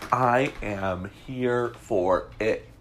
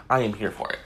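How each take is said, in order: First: Stretched out, relishing each word; slow, savoring. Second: Said in the usual way. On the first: Acted. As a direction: drag it out with glee. Relishing gossip, drawn out.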